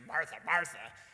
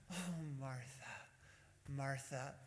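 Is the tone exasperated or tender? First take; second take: exasperated; tender. First: It sounds exasperated and impatient. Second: It sounds tender and affectionate.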